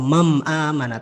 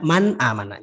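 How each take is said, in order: First: The nun is said as an m sound. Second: The nun is said as a clear n. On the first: The speaker calls it wrong. "atau mam amana" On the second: The speaker calls it right. "tapi dibaca man amana, jelas"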